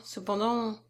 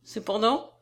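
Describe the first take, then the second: First: CEPENDANT softer, left unfinished; hesitant trailing off. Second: CEPENDANT repeated with a questioning rise; superior echo. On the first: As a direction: let CEPENDANT hang in the air. Edmé leaves her objection hanging. (« Cependant » doucement laissé en suspens) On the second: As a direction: echo CEPENDANT back, smugly expectant. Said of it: "répéta notre héros [...] avec une intolérable supériorité". (« Cependant » repris en montant, avec supériorité) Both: A narrator's reading.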